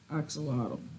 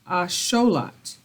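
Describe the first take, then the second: First: It begins with an 'ax' sound, with 'x'. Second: It begins with an 'ash' sound, no 'x'. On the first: This is the name used by English speakers. "That's the English pronunciation" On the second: This is the name used by the original local people. "the Aztecs um, pronounced this word Asholat"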